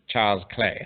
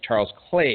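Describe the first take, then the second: First: The name is said in a put-on villain accent. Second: The name is said in an ordinary voice.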